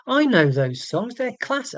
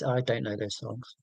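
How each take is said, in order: First: Mock-excited, pitch jumping higher; put-on eager recognition; feigned enthusiasm. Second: Soft, deflated confession; deadpan admission. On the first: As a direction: pretend to know them and love them. Feigns knowing the songs. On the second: Real, not acted. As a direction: drop to a low-key, much softer voice. Drops the pretence, admits ignorance.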